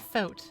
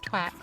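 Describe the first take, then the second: First: It is said with a 'th' and long 'o'. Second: It is said with a 'tw' and short 'a'. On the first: This is the expected reading of the spelling. "it doesn't say thoat" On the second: This is how the British text-to-speech reads it. "It says twat"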